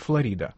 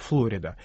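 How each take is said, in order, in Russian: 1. Произносится по обычному русскому варианту. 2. Произносится по-американски. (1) "в русском произношении принято называть Флорида" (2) "американцы, естественно, называют его Флорида"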